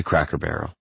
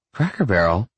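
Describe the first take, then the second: First: Said in the usual way. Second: "Cracker Barrel" as a question, rising at the end. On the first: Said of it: "until we get to Cracker Barrel". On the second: A narrator's reading. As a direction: ask "Cracker Barrel" doubtfully, lifting the last syllable. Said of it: "she asks".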